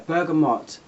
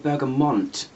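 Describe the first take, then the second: First: No N sound comes before the final T. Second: An N sound is added before the final T. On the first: The speaker calls it right. "there's no N in the word" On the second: The speaker calls it wrong. "I do hear a lot of people say bergamot, which really frustrates me"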